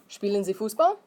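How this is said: It is said as a question, rising.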